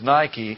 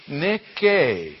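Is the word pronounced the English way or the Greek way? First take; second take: English; Greek. First: It is said with the usual English pronunciation. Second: It is said with the original Greek pronunciation. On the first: "which is Nike in English" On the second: "that is pronounced Nick-A"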